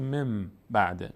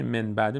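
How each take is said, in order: First: مم بعده with a held m before the b; nun swapped for meem in مم; n turned to m. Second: من بعده with a clear n before the b; distinct n at the end of من; unchanged n. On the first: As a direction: close the lips and hum the m in مم بعده. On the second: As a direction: say من بعده keeping the nun as written. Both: Shown as a demonstration.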